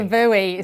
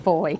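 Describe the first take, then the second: First: It is said as two syllables, like 'boo-ee'. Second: It is said as one syllable, like 'boy'. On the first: This is the American way of saying it. "Not a buoy" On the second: This is the British way of saying it. "In England, it's called a boy"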